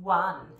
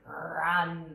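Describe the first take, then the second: First: It begins with a rounded-lip W sound. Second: It begins with a growly R sound. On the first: The speaker calls it wrong. "you said run with your round lips sound" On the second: The speaker calls it right. "with that growly sound? Run, like that"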